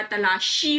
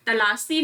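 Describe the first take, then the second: First: तलाशी said "ta-laa-shee"; "shee" ending on तलाशी; correct sibilant. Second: तलाशी said "ta-laa-see"; plain s in place of sh in तलाशी; "see" ending on तलाशी; wrong sibilant. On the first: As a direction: clear sh in तलाशी. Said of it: "बड़ा श की मात्रा". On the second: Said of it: "तलाशी नहीं होता". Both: Shown as a demonstration.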